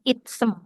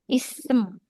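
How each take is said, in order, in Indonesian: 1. Ada bunyi T yang terdengar sebelum S. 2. Bunyinya langsung menyambung ke S, tanpa T. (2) "kalau ketemu huruf yang sama jadi masuk"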